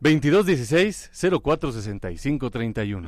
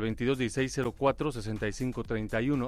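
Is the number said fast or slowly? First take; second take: slowly; fast. First: The number is said slowly. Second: The number is said fast.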